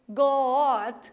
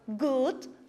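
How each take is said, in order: First: It is read with Portuguese letter sounds. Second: It is read with English letter sounds. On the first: The speaker calls it wrong. "Como que seria a leitura em português?" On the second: The speaker calls it right. "Mas como que a gente vai pronunciar?"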